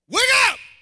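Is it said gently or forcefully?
forcefully. It is said loudly and forcefully.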